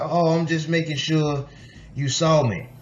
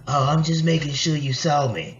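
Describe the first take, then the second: First: It is said in the speaker's ordinary voice. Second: It is said in a put-on, imitated voice.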